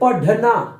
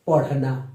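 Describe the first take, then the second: First: The middle consonant is a plain retroflex stop. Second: The middle consonant is a retroflex flap. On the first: "अगर हम बिंदी लगाना छोड़ दे, नीचे नुक्ता लगाना छोड़ दे, तो इसको पढ़ेंगे" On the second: "अगर यहां पर आप लगा दिए नुक्ता ... अड़ का"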